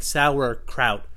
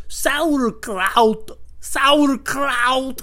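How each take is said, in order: First: Said in the usual way. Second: Put-on loud, high foreign-accent "Sauerkraut"; hammed-up accented shout, right in the face; spitting accented man. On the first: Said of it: "And I'm like". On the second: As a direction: spit out the word in a mock heavy accent. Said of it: "he's, like, spitting into my mouth".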